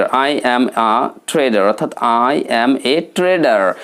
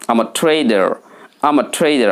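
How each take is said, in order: First: Said in the usual way. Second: "I'm a" shortened to am-a; smart accent. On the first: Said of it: "সাধারণভাবে অধিকাংশ ব্যক্তি". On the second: Shown as a demonstration. Teacher models a merchant's answer, smart contracted accent. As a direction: glide from "I'm a" straight into "trader". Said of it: "smart অ্যাকসেন্টে কথা বলতে হবে".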